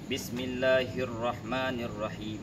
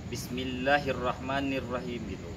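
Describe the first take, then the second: First: The vowel after 'll' is held for a beat. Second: The vowel after 'll' is clipped with no beat. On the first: The speaker calls it right. "Mat asli itu satu harkat" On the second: The speaker calls it wrong. "yang salah itu misalnya gini"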